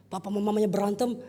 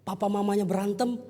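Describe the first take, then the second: No difference in how they are said.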